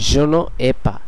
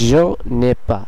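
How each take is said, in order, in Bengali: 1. 'ne' এর স্বরধ্বনিটি আলাদাভাবে উচ্চারিত হয়। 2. 'ne' এর স্বরধ্বনিটি লোপ পায় এবং পরের শব্দের সঙ্গে যুক্ত হয়।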